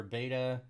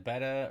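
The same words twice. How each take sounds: First: "beta" said BAY-tuh; "beta" starting like "bay"; long-a pronunciation. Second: "beta" said BET-uh; short E in the first syllable of "beta"; short-e pronunciation. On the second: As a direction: say "beta" like the betta fish. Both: Shown as a demonstration. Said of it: "is it beta or beta".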